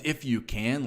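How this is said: It is said in an angry, indignant tone. How dare you doubt me. "was it said in an angry voice with angry eyes?"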